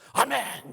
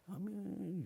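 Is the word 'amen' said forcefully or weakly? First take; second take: forcefully; weakly. First: It is said loudly, sharply and firmly. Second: It is said weakly and half-heartedly. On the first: The agreement is wholehearted and certain. The speaker calls it right. "아멘 이렇게 딱 해야지. 깜짝 놀라게" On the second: The agreement is half-hearted and unfinished. The speaker calls it wrong. "아멘 이러지 마세요. 뭐 생기다 말았어요"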